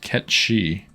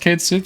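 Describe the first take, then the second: First: The name sounds like 'Ket Shi'. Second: The name sounds like 'Kate Sith'. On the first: The speaker calls it right. "pronounced Ket Shi" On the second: The speaker calls it wrong. "wait, it's not pronounced Kate Sith?"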